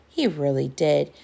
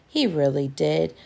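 The two takes are said the same way.

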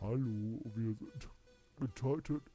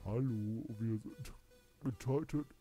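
First: It is said in a strained, throaty voice. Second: It is said in a strained, throaty voice.

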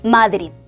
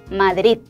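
First: The stress falls on the first syllable. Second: The stress falls on the last syllable. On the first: The speaker calls it wrong. "아무도 마드리드, 마드리드 하고 읽지 않아요" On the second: The speaker calls it right. "반드시 마드리드, 마드리드 하고 뒤를 올려서 읽어줘야 됩니다"

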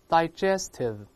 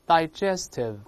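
No difference in how they are said.

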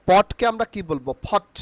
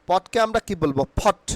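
No difference in how they are said.

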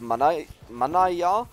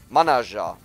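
First: The middle consonant is a Y sound. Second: The middle consonant is a J sound. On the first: "I think Manaja is pronounced Manaya" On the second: "an Italian wrote that it's pronounced like jeans. The J in jeans"

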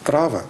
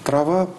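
First: The word carries the Serbian stress pattern. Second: The word carries the Russian stress pattern. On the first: "трава по-сербски" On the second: "Трава по-русски"

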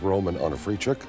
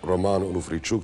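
First: The name is said with English pronunciation. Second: The name is said with Ukrainian pronunciation.

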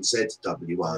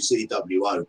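First: The letter Z is said as zed. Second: The letter Z is said as zee. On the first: This is the English way of saying it. "English people insist on calling it ZWO" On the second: This is the American way of saying it. "Dan and I will say ZWO"

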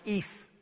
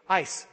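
First: The word rhymes with geese. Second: The word rhymes with nice. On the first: "that should be pronounced ees" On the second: "it says to pronounce it like the word ice"

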